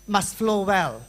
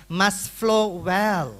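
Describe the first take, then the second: First: Said in the usual way. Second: Slow emphasis. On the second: Shown as a demonstration. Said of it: "teacher stressing key phrase".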